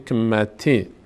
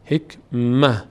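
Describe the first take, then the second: First: The word ends with a t plus short i. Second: The word ends with a soft h sound. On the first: The reciter joins it to the next word. "در هنگام وصل همینجوری که از خوانده میشه" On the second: The reciter stops after this word. "حکمت در هنگام وقف هم نقطه هاش میفته هم کسرش"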